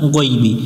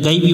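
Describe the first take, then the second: First: The first syllable sounds like 'goi'. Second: The first syllable sounds like 'gai'. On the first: The speaker calls it right. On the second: The speaker calls it wrong. "এখানে অনেকজন ভুল করে গাইবি, এটা গাইবি পড়া যাবে না"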